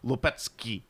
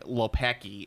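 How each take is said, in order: First: The name is said with a Polish-style pronunciation. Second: The name is said with a plain Americanized pronunciation. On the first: The speaker calls it right. "no, that's not the way you pronounce it. It's Lopiczki or something like that" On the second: The speaker calls it wrong. "I have Southside Chicago pronunciation"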